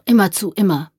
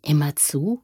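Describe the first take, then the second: First: "immer zu" stated with a falling end; "immer zu" as a raised, falling reply; insistent answer. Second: Soft rising question on "Immer zu"; "Immer zu" as a quiet query. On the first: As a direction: confirm "immer zu" firmly, then repeat it. Boy answers the question. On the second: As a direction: ask "Immer zu" with a gentle lift at the end. Man questions the boy. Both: A narrator's reading.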